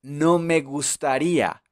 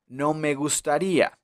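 No difference in how they are said.

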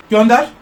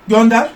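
Both takes have the same delivery.

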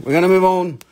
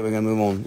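First: Said louder and higher, pressing the point; a firmer second telling; firm repeat. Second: Said in the usual way. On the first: Acted. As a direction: push it, we're moving on. Repeating himself to move the sale on.

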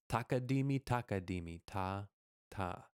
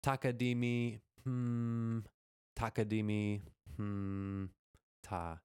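First: Two takadimis run straight together, then ta, ta; takadimi groups without break. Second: Hummed gap after each takadimi; wrongly broken takadimi groups. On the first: Teacher correcting the rhythm for students, takadimis with no break. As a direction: join the takadimi groups in one even run. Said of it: "there is no break". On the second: Teacher showing students how not to say it, takadimi broken by hums. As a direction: break up the takadimi groups with a held hmm. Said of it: "So it is not". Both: Shown as a demonstration.

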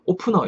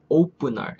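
First: 오프너 in flat Korean syllables, o-peu-neo; "opener" turned into Korean 오프너; Koreanized pronunciation. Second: "opener" with a tense, unaspirated p; "opener" with long o, tight p, final r; English pronunciation. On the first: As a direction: say 오프너 with an aspirated p and no final r. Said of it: "이렇게 하지 마시고". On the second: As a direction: say "opener" with the p like Korean 뿌. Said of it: "약간 뿌 발음". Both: Shown as a demonstration.

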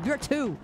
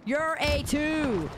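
First: Said in the usual way. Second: "a" said as a long "ay", then "two" drawn out; emphatic retort. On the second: Real, not acted. Streamer rating chat back, slow stress on "a two". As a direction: slowly separate "a" and "two".

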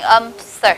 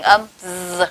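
First: The "s" sound as a pure hiss; "âm s" with an unvoiced s; voiceless s. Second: The "z" sound as a long buzz; "âm z" with a drawn-out voiced z. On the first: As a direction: hiss the s in "âm s" without voice. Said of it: "được gọi là âm vô thanh". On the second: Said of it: "được gọi là âm hữu thanh". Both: Shown as a demonstration.

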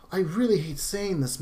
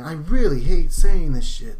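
First: Said in the usual way. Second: Much louder, pushing the repeat out hard. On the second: Real, not acted. Vlogger to viewers about the shooting, a louder exasperated repeat. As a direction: say it again but loud and fed up.

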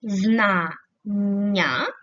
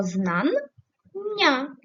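First: ЗНАННЯ split as зна ... ння, pause after зна; Знання broken before the double н; syllable break. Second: ЗНАННЯ split as знан ... ня, pause between the two н; знання broken inside the double н; syllable break. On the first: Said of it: "як ми будемо переносити слово знання". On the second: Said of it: "Такий варіант теж можливий". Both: Shown as a demonstration.

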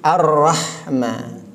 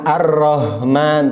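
First: Ar-Rahman with a clear open "ra"; Ar-Rahman said slowly with a clear "ra"; Ar-Rahman read right, ro held briefly; correct pronunciation. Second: Ar-Rahman said as "Arohman" with a rounded o; Ar-Rahman mispronounced as "Arohman", slowly; Ar-Rahman with a rounded "ro" instead of "ra"; wrong pronunciation. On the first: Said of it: "tapi Ar-Rahman". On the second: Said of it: "bukan Ar-Rahman". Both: Shown as a demonstration.

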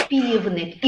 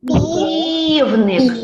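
First: Said in the usual way. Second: "Півник" with a long stretched first syllable; drawn-out sounding-out. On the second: Shown as a demonstration. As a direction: stretch the start of "Півник" so children hear it. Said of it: "Ану, промовляємо".

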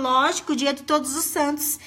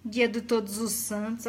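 First: A hint of the husband, sure of himself, with the stress on "Todos" in "dia de Todos os Santos"; lightly voiced husband spelling out the joke; husband's smug answer. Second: Dry, lower mocking echo of "Dia do Todos os Santos", stress on "Dia"; scornful echo. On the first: Husband explaining that "Todos os Santos" is his day, lightly smug. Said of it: "Ele falou". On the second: Wife mocking her husband's excuse to viewers, dry scoff. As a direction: repeat the husband's words with a scoff. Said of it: "Homem abusado, gente".

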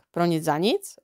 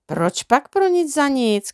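First: Said in the usual way. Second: Slow, calm and unruffled; calm reply. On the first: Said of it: "rozkřikl se Jux". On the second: A narrator's reading. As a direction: answer him calmly, taking your time. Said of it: "klidně odpověděl". (klidná odpověď, pomalu)

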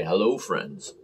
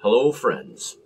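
First: Jim Nance greeting. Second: Said in the usual way. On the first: Retold or imitated. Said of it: "Jim Nance in Australia". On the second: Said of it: "Makes me wanna say".

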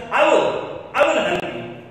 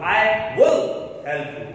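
First: "I will" punched high and loud, then "I will help you" still raised; stress on WILL. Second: "will" leaned on loud, slow and a little low; stress on WILL. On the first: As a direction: hit "will" hard as a firm promise. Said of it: "This time you are focusing the sentence". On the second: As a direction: say "I will help you" slowly, pressing "will". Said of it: "Your accent is there on the word shall, will". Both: Shown as a demonstration.

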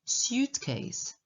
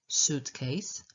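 First: "suitcase" as SYOOT-case; suitcase with y-glide. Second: "suitcase" as SOOT-case, no y-glide; suitcase with plain oo. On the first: Teacher giving the other accepted variant of "suitcase", with a y-glide. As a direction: slip a y sound in after the S of "suitcase". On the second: Teacher giving the first accepted variant of "suitcase", plain oo. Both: Shown as a demonstration. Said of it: "Obie, obie są, e, poprawne".

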